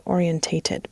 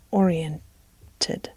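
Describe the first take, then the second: First: "orientated" with an extra TATE syllable. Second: "oriented" drawn out as or-ee-EN-ted; shorter form oriented. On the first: Narrator trying out a word she keeps wanting to say, "orientated" with TATE. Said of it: "I keep wanting to say orientated". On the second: Narrator settling on the right word, "oriented" said slowly without TATE. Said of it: "I think it's just oriented". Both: Shown as a demonstration.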